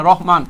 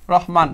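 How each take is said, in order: First: "রহমান" said as "Rohman", rounded o first; correct pronunciation. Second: "রহমান" said as "Rahman", open a first; wrong pronunciation. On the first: Teacher correcting a poet's name for students, "রহমান" pronounced "Rohman". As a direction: say "রহমান" with an "o" in the first syllable, lower pitch. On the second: Teacher showing students the wrong name form, mispronounced "রহমান" as "Rahman". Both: Shown as a demonstration. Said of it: "রহমান না".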